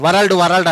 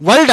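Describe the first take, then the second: First: వరల్డ్ said with the r sounded, va-ral-d; wrong pronunciation. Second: వరల్డ్ said with a silent r, like vald; correct pronunciation. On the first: Teacher showing students the common wrong way to say world. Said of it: "అలా అనకూడదు". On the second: Teacher showing students the right way to say world. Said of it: "వరల్డ్ అనాలి". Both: Shown as a demonstration.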